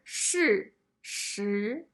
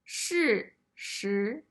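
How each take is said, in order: The two takes are said the same way.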